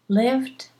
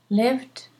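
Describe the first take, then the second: The two takes are said the same way.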